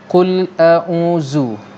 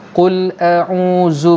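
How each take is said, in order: First: The consonant is a buzzing z sound. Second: The consonant is a buzzing z sound.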